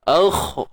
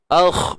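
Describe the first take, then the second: First: The kh sound is thick and heavy. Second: The same.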